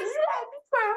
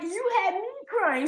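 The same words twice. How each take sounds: First: Very high, squeaky comeback; student's playful retort. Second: High, drawn-up mock blame; playful accusation. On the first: Retold or imitated. Student turning the blame back on teacher, playful retort. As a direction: throw the blame back in a much higher voice. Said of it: "She's like". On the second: Teacher telling student who made her cry, playfully accusing. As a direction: blame them teasingly in a raised pitch.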